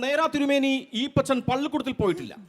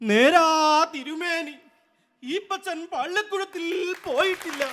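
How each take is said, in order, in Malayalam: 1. ഇത് വാർത്താ അവതാരകന്റെ ഔപചാരിക ശൈലിയിൽ വായിക്കുന്നതാണ്. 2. ഇത് തെരുവുനാടക നടന്റെ ശൈലിയിൽ ഉച്ചത്തിൽ ചൊല്ലുന്നതാണ്. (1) "ഒരു ചാനലിൽ വാർത്ത വായിക്കുന്ന ഒരു അവതാരകനാണ് പറയുന്നതെങ്കിൽ" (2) "തെരുവ് നാടകത്തിലെ ഒരു നടനാണ് ഇത് പെർഫോം ചെയ്യുന്നത്"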